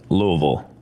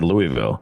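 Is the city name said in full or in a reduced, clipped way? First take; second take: reduced; full. First: The name is said clipped, with syllables reduced. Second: The name is said fully, every syllable clear. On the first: This is how people who live there say it. "that's not how you pronounce it" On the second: This is how an outsider says it. "I said Louisville"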